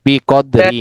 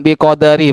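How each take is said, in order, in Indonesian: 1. Tidak ada vokal yang terdengar di antara d dan r. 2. Ada vokal yang terdengar di antara d dan r.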